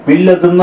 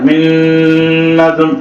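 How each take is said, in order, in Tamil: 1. இரட்டித்த ஒலி சாதாரணமாக, மூக்கொலி இல்லாமல் ஒலிக்கப்படுகிறது. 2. இரட்டித்த ஒலி அழுத்தமாக, மூக்கொலியுடன் ஒலிக்கப்படுகிறது. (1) "மில்லதுன் தான் சொல்லணும்" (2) "அப்படி அழுத்தி ராகமா சொல்லக்கூடாது"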